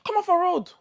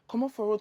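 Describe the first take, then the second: First: It is said in an angry tone. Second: It is said in a polite tone.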